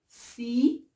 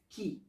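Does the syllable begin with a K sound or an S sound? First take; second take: S sound; K sound. First: It begins with a soft S sound. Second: It begins with a hard K sound. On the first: The speaker calls it right. "Je dis" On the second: The speaker calls it wrong. "ما كنقولش"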